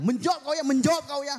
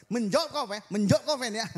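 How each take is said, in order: First: Loud, high angry scold; scolding Batak mother. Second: Loud, high angry scold at Fen; scolding Batak mother. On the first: Batak mother yelling at her daughter from outside, furious scold. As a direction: snap at the daughter like a furious mum. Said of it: "Terus mamanya bilang". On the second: Mother scolding Feni for talking back, loud angry scold. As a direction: bark it at the daughter through the door. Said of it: "Terus mamanya bilang di luar". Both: Retold or imitated.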